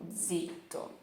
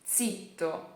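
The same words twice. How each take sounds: First: The z at the start is soft and light. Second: The z at the start is strong and forceful. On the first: This is how people say it where the speaker lives. "Aqui a gente fala zitto, zitto, tá bom? Mais de levinho" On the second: This is how people in Tuscany say it. "lá na Toscana eles falam zitto"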